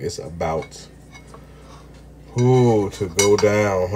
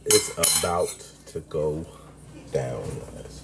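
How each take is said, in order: First: Slow, stretched to go down; slow teasing build-up before the bite; drawn-out catchphrase. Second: Low, quiet, sinking build-up to down; hushed teaser voice sinking into down; dramatic drop. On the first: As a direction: savour every word of it. Repeating the catchphrase. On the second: Announcing the meal. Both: Acted.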